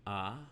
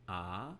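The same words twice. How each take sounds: First: The vowel is cut very short. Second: The vowel is held long. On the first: "We can also reduce that to ah" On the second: "the long ah sound would be kamats"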